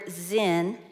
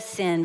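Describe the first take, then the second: First: The word begins with a z sound. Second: The word begins with an s sound. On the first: The speaker calls it right. "You actually pronounce this word zin" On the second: The speaker calls it wrong. "instead of sin"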